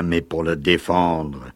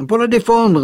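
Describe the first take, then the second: First: Said in the usual way. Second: Gravely repeating, much higher and louder; a grave, pointed echo of his words. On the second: Acted. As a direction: weigh the words with gravity. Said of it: "reprit Gilda gravement".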